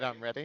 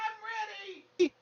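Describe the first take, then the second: First: It is said in the speaker's normal voice. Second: It is said in a put-on character voice. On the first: "it's not as good like that" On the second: "You gotta stop with the voice"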